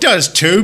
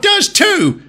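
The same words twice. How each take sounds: First: Said in the usual way. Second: Put-on childish shout. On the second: Bickering engines at the end of their squabble, childish shout. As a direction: win the squabble by yelling.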